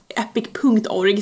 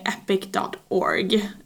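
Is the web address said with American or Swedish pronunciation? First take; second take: Swedish; American. First: It is said with a Swedish pronunciation. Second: It is said with an American pronunciation. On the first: "säger vi kanske här i Sverige" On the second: "så amerikanskt"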